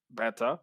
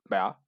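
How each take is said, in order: First: The word is said with both syllables in full. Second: The word is mumbled and clipped to one syllable. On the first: "em vez de dizeres beta" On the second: "o mumbling, que é o não dizer essas palavras"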